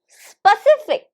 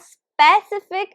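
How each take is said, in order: First: The first vowel is a weak schwa sound. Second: The first vowel is a full, clear vowel. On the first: The speaker calls it right. "It's called a schwa sound. So it is specific" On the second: The speaker calls it wrong. "it's not specific"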